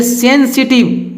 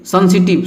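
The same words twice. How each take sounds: First: सेंसिटिव with a clear e, "sen-si-tib"; correct pronunciation. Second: सेंसिटिव with an uh vowel, "san-si-tib"; wrong pronunciation. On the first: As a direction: open सेंसिटिव on "sen", not "sun". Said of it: "इसको पढ़ेंगे". (सेंसिटिव, साफ़ "से" से) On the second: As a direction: open सेंसिटिव like "sun". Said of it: "नहीं पढ़ेंगे". (सेंसिटिव को गलत "संसिटिब" बोलें) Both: Shown as a demonstration.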